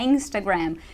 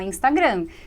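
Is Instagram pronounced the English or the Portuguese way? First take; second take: English; Portuguese. First: It is pronounced with English sounds. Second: It is pronounced with Portuguese sounds.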